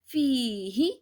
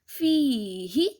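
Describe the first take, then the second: No difference in how they are said.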